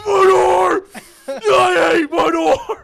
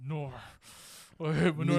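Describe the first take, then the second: First: It is said loudly and very dramatically. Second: It is said calmly, without much drama.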